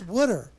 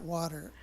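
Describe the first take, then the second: First: It is said in a Philadelphia accent. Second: It is said in a general American accent. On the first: "It's wooder" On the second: "In Philadelphia, it's not water"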